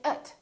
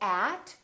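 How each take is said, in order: First: The vowel is reduced to a short uh. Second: The vowel is a full, clear vowel. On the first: The speaker calls it right. "we say ut" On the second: The speaker calls it wrong. "So we don't say at"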